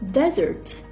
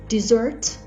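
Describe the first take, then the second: First: The stress is on the first syllable. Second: The stress is on the second syllable. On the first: A large dry area of sand. "with a stress on the first syllable" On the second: Sweet food eaten after a meal. "with a stress on the second syllable"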